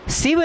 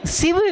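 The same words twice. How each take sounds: First: शिव said siv with a dental s; the mistake, शिव as siv; शिव with a hissed dental s; wrong pronunciation. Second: शिव with the palatal sh, shiv; शिव said shiv, clearly; correct pronunciation. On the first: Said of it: "शिव नहीं". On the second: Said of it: "तालव्य श है". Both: Shown as a demonstration.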